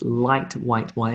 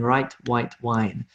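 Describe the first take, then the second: First: The first word starts with an L sound. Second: The first word starts with an R sound. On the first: The speaker calls it right. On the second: The speaker calls it wrong.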